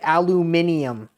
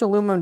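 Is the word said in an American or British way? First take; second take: British; American. First: It is said the British way, five syllables. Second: It is said the American way, four syllables.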